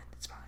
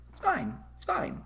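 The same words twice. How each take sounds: First: Said in the usual way. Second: High, soft, strained it's fine; forced little it's fine; mock calm. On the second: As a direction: squeak it out like everything's falling apart. Repeats it's fine, mocking.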